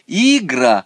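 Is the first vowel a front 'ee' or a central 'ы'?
front. The first vowel is a front 'ee' sound. "Он хочет сказать"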